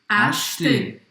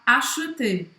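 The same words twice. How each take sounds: First: The middle E vowel is dropped entirely. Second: The middle E vowel is clearly pronounced. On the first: This is how it is said in many other regions. "não vai falar esse E, a gente vai falar acheter" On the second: This is how it is said in some regions. "as pessoas vão pronunciar o E no meio, eles vão falar acheter"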